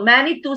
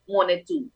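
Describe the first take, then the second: First: It has an anglicized English pronunciation. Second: It has the native Algonquian pronunciation. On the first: This is the form used in English. "So Manitou sa Ingles" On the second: This is the form used in the original language. "pero ang pronunciation na Monetu"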